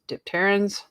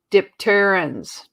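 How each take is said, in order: First: Dipterans asked with a rising, questioning tune; unsure question. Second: Dipterans said slowly with a falling tune; statement. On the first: Host checks her pronunciation, Dipterans as a question. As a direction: try Dipterans again as a soft question. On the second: Unsure host sounds out dipterans, falling tune. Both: Shown as a demonstration. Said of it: "I think I'm saying this right".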